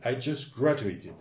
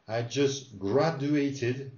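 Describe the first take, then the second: First: Said in the usual way. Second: Very slow, each syllable laid out; slow it right down so the student hears every sound; slow drill. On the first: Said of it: "with a normal speed". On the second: Shown as a demonstration. Teacher slowly modelling for the student. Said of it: "let's do it again".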